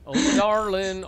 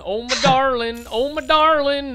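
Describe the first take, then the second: First: A hammed-up sigh of love; mock swoon. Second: Louder, higher, slower lovesick cry; mock swoon building. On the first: First lovesick cry to his co-caster, a mock swoon. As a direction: start the lovesick line small. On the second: Crying out to his co-caster, hammed-up lovesick and louder. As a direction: belt the endearment like a soap opera.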